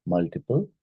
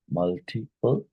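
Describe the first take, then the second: First: Said in the usual way. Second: "Multiple" broken into separate syllables. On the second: Shown as a demonstration. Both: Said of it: "which of these is a polysyllabic".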